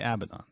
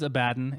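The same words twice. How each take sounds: First: The name is said in an altered form. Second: The name is said in its standard form. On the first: This version simply sounds better to the speaker. The speaker calls it wrong. "It doesn't sound good to me, so I'm going to say Abaddon" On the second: This is how the name is officially said. The speaker calls it right. "it is Abaddon, ... I understand that's how you say it"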